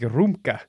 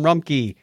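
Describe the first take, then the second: First: The name ends with an 'uh' sound. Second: The name ends with a 'key' sound. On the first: This is how it would be said in Germany. "Unless we're in Germany, then it'd be Rumka" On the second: This is the usual local pronunciation. "Second part sounds like the thing you used to open a door"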